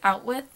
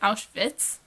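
First: The w is said like an English w. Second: The w is said like an English v. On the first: The speaker calls it wrong. "He kept pronouncing it as Outwith" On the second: The speaker calls it right. "They'd have said the W like English speakers say a V"

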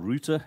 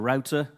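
First: Router is said in a British accent. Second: Router is said in an American accent.

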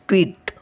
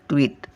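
First: The vowel is drawn out long. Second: The vowel is said quickly and short. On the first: "ओढवून बोलतो लांब" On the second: "असं पटकन येतो उच्चार"

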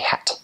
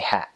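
First: The final T is clearly released. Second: The final T is barely pronounced. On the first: "every T is really important to them" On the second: "we sort of don't pronounce our T's. Like, we'll say hat"

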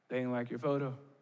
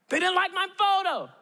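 First: It sounds calm and unimpressed. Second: It sounds angry and upset.

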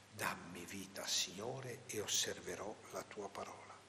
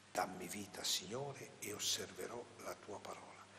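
Both takes have the same delivery.

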